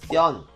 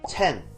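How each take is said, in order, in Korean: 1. 된소리 t를 써서 tten으로 발음합니다. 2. e 모음을 써서 chen으로 발음합니다. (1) "아랫지방은 뗀" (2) "위쪽 지방은 첸"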